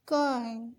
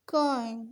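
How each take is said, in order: Both takes have the same delivery.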